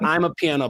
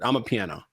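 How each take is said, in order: First: It starts with 'I'm', like separate words. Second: It starts with 'ah', said as one word. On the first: The speaker calls it wrong. "Not I'm a piano, but ama" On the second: The speaker calls it right. "one word"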